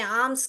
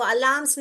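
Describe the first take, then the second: First: आर्म्स said "arms", with no "a" sound before the r; the right way for the class to read it; correct pronunciation. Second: अलार्म्स with an extra "a" sound before the l, the wrong way; the mistake students make; wrong pronunciation. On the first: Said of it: "आर्म्स करके पढ़ते हैं". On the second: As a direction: say अलार्म्स as "alarms". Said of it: "इसको अलार्म्स नहीं पढ़ते हैं". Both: Shown as a demonstration.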